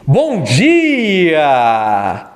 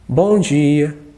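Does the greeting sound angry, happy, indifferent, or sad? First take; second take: happy; sad. First: The greeting sounds happy. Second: The greeting sounds sad. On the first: "Um bom dia feliz" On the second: "Um bom dia triste"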